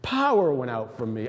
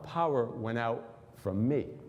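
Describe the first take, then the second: First: The stress falls on the word 'power'. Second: The stress falls on the word 'me'. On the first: Power left him, so he knows something happened. "I tended to always read it like this" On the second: The power came from him, not from his garment. "What if he said it like this? ... The power came out of me"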